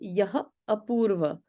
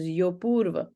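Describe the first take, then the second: First: Two separate words, with no sounds merged. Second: The words run together into one merged word. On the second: "I'm going to give you an example of a sandhi right here"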